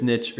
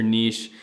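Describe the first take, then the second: First: Niche rhyming with rich; niche as "nitch". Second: Niche rhyming with leash; niche as "neesh". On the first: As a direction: say niche with a short i and tch. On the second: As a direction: say niche with a long ee and sh. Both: Shown as a demonstration. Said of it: "debate of whether it's niche or niche".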